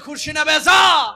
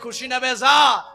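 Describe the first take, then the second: First: The phrase is said with a louder voice. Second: The phrase is said at a normal volume.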